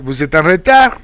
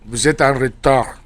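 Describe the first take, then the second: First: The pitch rises at the end. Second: The pitch falls at the end. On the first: It asks whether the listener is late. "If you make it inflection, you make it a question" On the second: It states that the listener is late. "So that's a statement saying you are late"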